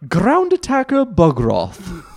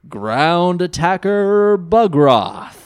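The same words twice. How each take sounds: First: The name is said in a British accent. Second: The name is said in a plain American accent.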